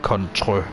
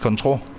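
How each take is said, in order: First: The word is said with an ö vowel. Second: The word is said with a plain o vowel. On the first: "That's the ö sound" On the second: "but it's control"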